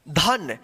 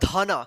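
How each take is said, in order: First: The word ends in a consonant sound. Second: The word ends in an added vowel sound. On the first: The speaker calls it right. "तो क्या पढ़ेंगे इसको? धन।" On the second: The speaker calls it wrong. "अगर आप इसमें भी अ की साउंड ला दिए लास्ट वाला अक्षर में, ... जो बिल्कुल गलत हो जाएगा"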